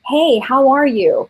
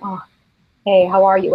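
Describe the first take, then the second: First: The greeting sounds warm and enthusiastic. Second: The greeting sounds tired and indifferent.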